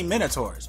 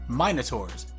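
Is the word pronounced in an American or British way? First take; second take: American; British. First: The word has a non-British, American-style pronunciation. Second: The word has a British-style pronunciation.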